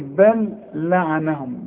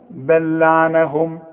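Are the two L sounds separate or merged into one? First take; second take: separate; merged. First: The two L sounds are said separately. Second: The two L sounds merge into one. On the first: The speaker calls it wrong. "اوعى تقول لي بل لعنهم" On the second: The speaker calls it right. "يبقى عندي لام واحدة بس"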